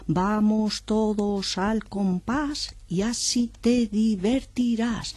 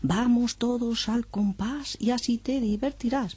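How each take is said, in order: First: The line is said very slowly. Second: The line is said a bit faster. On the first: "empieza muy despacito" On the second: "Luego un poquito más deprisa"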